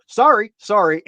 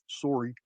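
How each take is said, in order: First: Canadian sorry. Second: A lower, softer Canadian sorry under the breath; quiet Canadian apology that slips out; muttered Canadian sorry. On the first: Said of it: "they both go". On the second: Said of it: "he just can't". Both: Retold or imitated.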